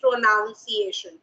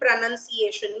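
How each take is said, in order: First: The second syllable sounds like 'noun'. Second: The second syllable sounds like 'nun'. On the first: The speaker calls it wrong. "Many people say pronunciation" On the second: The speaker calls it right. "I'm saying pronunciation. ... the right pronunciation is pronun"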